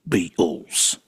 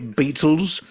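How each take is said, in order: First: The t in the middle is softened. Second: The t in the middle is crisp. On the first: The speaker calls it right. "I will not pronounce the T in Beatles" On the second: The speaker calls it wrong. "You don't say Beatles"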